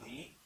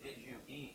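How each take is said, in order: First: The words run together into one syllable. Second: Each word is said clearly and separately.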